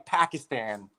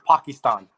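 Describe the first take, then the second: First: It is said with a plain American pronunciation. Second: It is said with a foreign-style, worldly-sounding pronunciation. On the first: The speaker refuses to sound cosmopolitan. "just to not be like them" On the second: The speaker is trying to sound cosmopolitan. "try to sound like worldly"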